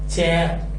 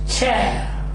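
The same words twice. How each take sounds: Both takes have the same delivery.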